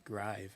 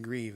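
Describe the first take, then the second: First: "grieve" said with the vowel of "drive", like gryve; "grieve" rhymes with five; grieve said as grive. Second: "grieve" said with a long ee, like greev; "grieve" rhymes with leave; grieve as said now. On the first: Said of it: "I don't know if I would say it as". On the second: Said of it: "I'm saying it grieve". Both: Shown as a demonstration.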